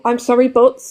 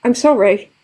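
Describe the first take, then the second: First: "I'm sorry, but" with the weight landing on "but"; "but" stressed as if an excuse follows; apology with but. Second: "I'm sorry" closed off with a falling end; a simple, finished "I'm sorry"; plain full-stop apology. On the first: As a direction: lean on "but" and leave it hanging. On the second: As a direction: say "sorry" with a final fall, no add-on. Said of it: "it should just be". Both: Shown as a demonstration.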